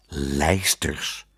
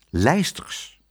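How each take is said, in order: First: Low, wondering echo; lower, baffled repetition; puzzled wonder. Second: Said in the usual way. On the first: A narrator's reading. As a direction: repeat it in quiet, low amazement. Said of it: "zei meneer Pardoes verwonderd".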